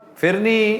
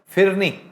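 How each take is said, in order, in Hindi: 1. पहला स्वर 'i' जैसी आवाज़ देता है। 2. पहला स्वर 'i' जैसी आवाज़ देता है।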